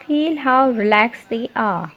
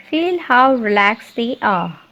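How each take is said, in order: Both takes have the same delivery.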